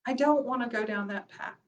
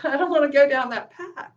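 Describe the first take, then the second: First: Quieter, firm "I don't wanna go down that path"; softer. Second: Laughing through "I don't wanna go down that path". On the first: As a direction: settle it down, softly and firmly. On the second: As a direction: say it with a chuckle, light and louder. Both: Shown as a demonstration.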